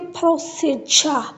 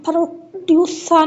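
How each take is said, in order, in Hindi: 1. बीच का व्यंजन एक अकेली 'j' ध्वनि है। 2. बीच का व्यंजन एक अलग 'dy' ध्वनि है। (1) "दिस इज अ जा साउंड" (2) "हम प्रोड्यूसा नहीं कह सकते"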